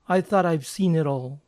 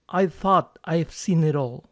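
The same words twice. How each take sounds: First: It is said at normal pace with linked words. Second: It is said slowly with separated words. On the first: "por lo general la gente lo va a pronunciar de este modo" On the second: "Si lo digo lento puede que suene así"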